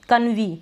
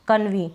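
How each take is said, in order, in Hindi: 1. यह शब्द 'ee' की आवाज़ से खत्म होता है। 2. यह शब्द 'ee' की आवाज़ से खत्म होता है।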